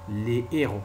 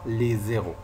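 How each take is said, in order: First: The words are said separately without a z link. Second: The words are joined with a z link. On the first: The speaker calls it right. "La prononciation correcte est les héros" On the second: The speaker calls it wrong. "et non pas les zéros. C'est faux"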